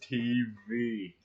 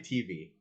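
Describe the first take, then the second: First: It is said slowly. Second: It is said fast.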